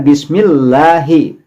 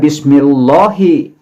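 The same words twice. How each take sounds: First: The l sound is light and thin. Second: The l sound is heavy and full. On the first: The speaker calls it right. "Tapi di sini membacanya bismillahi" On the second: The speaker calls it wrong. "Tidak membaca bismillahi seperti pada tafhim"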